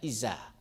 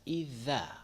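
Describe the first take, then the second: First: The middle consonant is a hissing s sound. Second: The middle consonant is a voiced dental 'th' sound. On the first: The speaker calls it wrong. "c'est pas isa" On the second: The speaker calls it right. "c'est zal"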